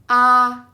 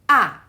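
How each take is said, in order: First: The pitch stays level and smooth. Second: The pitch falls sharply from high. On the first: "It's flat and smooth" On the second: "the stick that come from upper left towards the uh, lower right"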